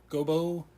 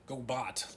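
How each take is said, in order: First: The name ends in a vowel, without a t. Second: The name ends with a clear t sound. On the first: "I'm not sure if it's a French pronunciation" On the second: "like a robot"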